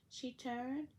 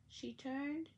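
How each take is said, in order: No difference in how they are said.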